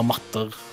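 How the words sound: It is pronounced the Norwegian way.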